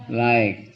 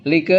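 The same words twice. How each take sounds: First: "like" with an eye vowel, one syllable; correct English reading. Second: "Like" sounded out as lee-kuh; read as spelled. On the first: Teacher giving the class the reading, "like" as lyke. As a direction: say "like" as lyke, silent final e. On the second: Teacher showing the class the spelling, "Like" as lee-kuh. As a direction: say "Like" as written, with an ee vowel and voiced e. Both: Shown as a demonstration.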